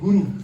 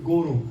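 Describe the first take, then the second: First: The word is said with its usual vowels. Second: The first vowel is changed, sounding like another word. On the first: It names the spiritual teacher. The speaker calls it right. "They don't worshipping Guru" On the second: It names a bull. The speaker calls it wrong. "they do Guru"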